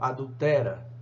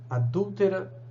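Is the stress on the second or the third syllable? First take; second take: third; second. First: The stress is on the third syllable, te. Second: The stress is on the second syllable, dul. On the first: The speaker calls it wrong. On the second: The speaker calls it right.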